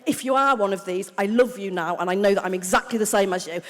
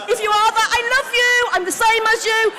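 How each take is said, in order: First: Said in the usual way. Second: High, loud shout to the crowd; calling out. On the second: Real, not acted. Comic reassuring cocaine addicts in the audience, calling out. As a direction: holler it affectionately over the room.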